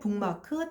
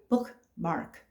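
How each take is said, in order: First: The k turns into a nasal ng sound. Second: The k is released as a stop before m. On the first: "나도 모르게 북마크, 탑 모델 이렇게 발음을 하는 거죠. 콩글리시가 됩니다" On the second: "외파를 시키면서 어차피 bookmark"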